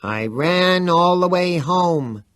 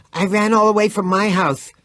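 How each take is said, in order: First: High, slow hammed-up falsetto croon; mocking falsetto. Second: Said in the usual way. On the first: A narrator's reading. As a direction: sing it like a cheesy pop ballad. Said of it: "dreadful little Antony falsetto".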